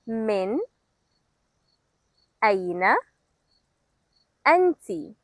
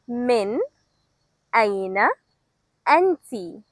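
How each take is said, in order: First: It is said slowly. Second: It is said at normal speed.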